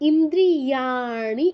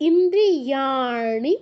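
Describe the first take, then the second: No difference in how they are said.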